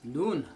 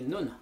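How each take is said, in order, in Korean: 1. 모음을 길게 발음해요. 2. 모음을 짧게 발음해요.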